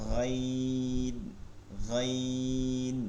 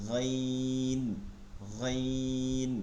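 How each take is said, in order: The two takes are said the same way.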